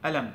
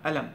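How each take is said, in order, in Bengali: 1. শব্দটি glottal stop দিয়ে শুরু হয়। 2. শব্দটি glottal stop দিয়ে শুরু হয়।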